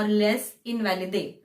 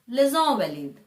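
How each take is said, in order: First: It is said the anglicized, spelling-based way. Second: It is said with the French pronunciation. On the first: The speaker calls it wrong. "We usually say it as Les Invalides" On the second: The speaker calls it right. "It's actually Les Invalides"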